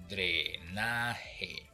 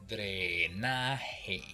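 No difference in how they are said.

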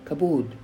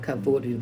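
First: The middle consonant is a B sound. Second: The middle consonant is a V sound. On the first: The speaker calls it right. "it is kabod or kabad" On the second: The speaker calls it wrong. "it's not kavad or kavod with the V"

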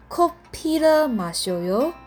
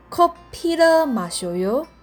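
The two takes are said the same way.

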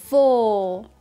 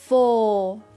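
No difference in how they are said.

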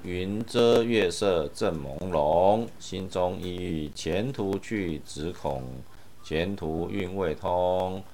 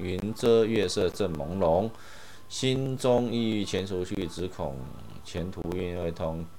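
No difference in how they are said.

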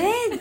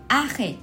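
First: It is said with dramatic surprise. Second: It is said in a plain, normal way.

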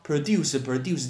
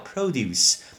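First: The stress is on the second syllable. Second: The stress is on the first syllable. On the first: It means to make or manufacture. The speaker calls it wrong. "produce 叫做生产制造，不对耶" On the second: It means farm products. The speaker calls it right. "这个字终于要放在前面，叫produce"

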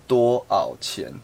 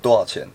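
First: It is said slowly, syllables kept apart. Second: It is said fast, syllables run together.

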